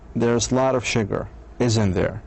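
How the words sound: The voice falls on the final tag. The speaker already knows the answer. "and sure of the answer"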